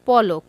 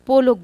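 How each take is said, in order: First: The first vowel is an open 'aw' sound. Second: The first vowel is a closed 'o' sound. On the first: The speaker calls it right. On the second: The speaker calls it wrong.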